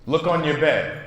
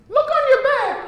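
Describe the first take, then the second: First: Said in the usual way. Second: Squeaky high, loud fairy voice. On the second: Acted. Teacher voicing the fairy to her class, high and bright. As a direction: pitch way up into a tiny fairy. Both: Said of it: "Or, excuse me".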